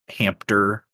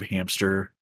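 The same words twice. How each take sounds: First: The word is pronounced in a deliberately distorted way. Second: The word is pronounced in the standard way. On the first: The speaker calls it wrong. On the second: The speaker calls it right.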